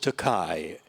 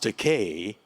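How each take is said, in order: First: The name's ending does not rhyme with okay. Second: The name's ending rhymes with okay. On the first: The speaker calls it wrong. "you're now mispronouncing my name" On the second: The speaker calls it right. "It's pronounced Takei"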